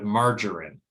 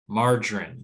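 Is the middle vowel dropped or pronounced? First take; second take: pronounced; dropped. First: All three syllables are pronounced. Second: The middle syllable is dropped.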